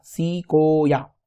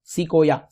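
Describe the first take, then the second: First: "सिकोया" drawn out as सी, को, या; three long, slow beats on "सिकोया"; syllable demo. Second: Said in the usual way. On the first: Shown as a demonstration. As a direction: slowly sound out each syllable of "सिकोया". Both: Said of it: "ये syllable होता क्या है".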